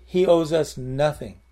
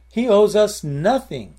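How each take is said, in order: First: Said in the usual way. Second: Slow, louder and higher, leaning on owes; emphatic preaching. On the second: Real, not acted. Preacher to congregation, slow emphatic declaration. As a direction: drive home He owes us nothing, stretching owes. Preacher hammers the point home.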